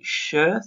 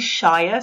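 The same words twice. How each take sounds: First: The syllable is reduced and blended in. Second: The syllable is said fully as 'shire'. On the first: The speaker calls it right. "We say Shire" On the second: The speaker calls it wrong. "We don't say Shire so much"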